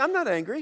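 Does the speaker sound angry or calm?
calm. It is said in a calm, even voice. "You don't say"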